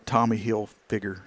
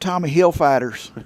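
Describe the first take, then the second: First: The name ends with a 'figure' sound. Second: The name ends with a 'fighter' sound. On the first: The speaker calls it right. "I almost mispronounced it" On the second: The speaker calls it wrong. "she always mispronounced it"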